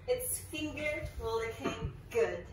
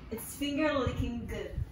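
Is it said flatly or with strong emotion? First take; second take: strong emotion; flatly. First: It is said with full, strong emotion. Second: It is said flatly, without much emotion.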